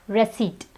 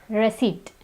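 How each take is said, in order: Both takes have the same delivery.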